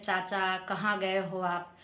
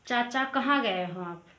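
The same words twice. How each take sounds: First: Slow, word by word for students to note; slow repeat. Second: Said in the usual way. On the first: Shown as a demonstration. Teacher repeating the Hindi phrase for learners, slowly. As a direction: spell the question out slowly. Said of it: "Hindi में ऐसे तो बोलते हैं". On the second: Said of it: "जैसे हम लोग पूछते हैं".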